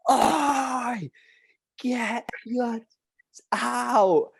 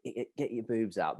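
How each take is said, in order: First: High, drawn-out call across a field; shouted heckle. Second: Hushed crude heckle. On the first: Schoolboy heckling a match from afar, shouted. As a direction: yell it out slowly to carry far. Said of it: "someone shout it". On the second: Lad egging on his mates, hushed. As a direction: say it under your voice, much softer. Repeating crude chant, not yet shouted. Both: Retold or imitated.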